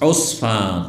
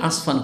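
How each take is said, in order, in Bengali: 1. প্রথম স্বরধ্বনিটি 'u' ধ্বনি। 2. প্রথম স্বরধ্বনিটি 'a' ধ্বনি। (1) "জায়গাটির নাম হচ্ছে উসফান" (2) "সব ইন্ডিয়া বাংলাদেশ সবাই বলে আসফান"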